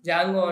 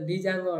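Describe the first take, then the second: First: It starts with a plain J sound, no D. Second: A separate D sound comes before the J. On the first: "జాంగో అంటాం" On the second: "లేకపోతే డి జాంగో అంటారు ఇలా"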